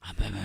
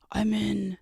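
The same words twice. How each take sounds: First: Low, deep hacker voice. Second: Said in the usual way. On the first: Shown as a demonstration. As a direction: drop deep for a movie hacker line. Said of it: "my hacker voice". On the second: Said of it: "hacker voice".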